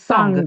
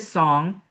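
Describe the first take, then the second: First: It ends in a hard G sound. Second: It ends in a soft ng sound. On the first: "when you do the Russian, it's song ... a harder G at the end" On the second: "In English, we say song"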